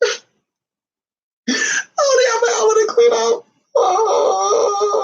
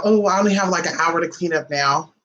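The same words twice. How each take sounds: First: High-pitched, hammed-up mock wail; fake crying. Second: Said in the usual way. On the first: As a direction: bawl it out in pretend sobs. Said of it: "I'm not really crying".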